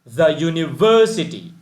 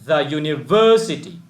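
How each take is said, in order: The two takes are said the same way.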